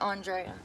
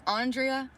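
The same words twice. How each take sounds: First: "Andrea" as ahn-DRAY-uh; pronounced with "ay". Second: "Andrea" as AHN-dree-uh; pronounced with "ee". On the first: Asking if it's the second one, "Andrea" as ahn-DRAY-uh. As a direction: give "Andrea" an "ay" sound before the uh. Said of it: "or the second one". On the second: Asking if it's the first one, "Andrea" as AHN-dree-uh. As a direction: give "Andrea" an "ee" sound before the uh. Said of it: "Is it the first one". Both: Shown as a demonstration.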